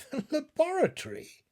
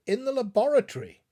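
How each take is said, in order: First: High, baffled echo of the word; a puzzled question. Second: Loud, fast, firm answer; a firm, clear reply. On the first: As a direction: repeat it as if it makes no sense. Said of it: "he answered in a puzzled tone". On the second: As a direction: state it plainly to calm him. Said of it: "as clear and as firm a tone". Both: A narrator's reading.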